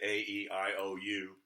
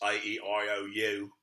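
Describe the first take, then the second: First: The vowels are said in a plain American accent. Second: The vowels are said in a British accent. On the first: "We say" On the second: "If you speak in English"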